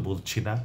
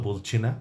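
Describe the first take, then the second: No difference in how they are said.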